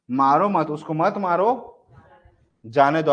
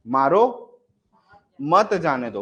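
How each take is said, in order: First: "मारो मत" as one unit, "जाने दो" set apart; pause after मत. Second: "मारो" rising, long pause, then "मत जाने दो"; pause after मारो. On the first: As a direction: keep "मारो मत" together, long break before "जाने दो". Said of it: "यहां लगा दूं तो क्या हो जाएगा". ("मारो मत" साथ में, "जाने दो" से पहले विराम) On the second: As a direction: break after "मारो", keep "मत जाने दो" together. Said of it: "comma को अगर मैं यहाँ लगा दिया". ("मारो" के बाद लंबा विराम, फिर "मत जाने दो") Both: Shown as a demonstration.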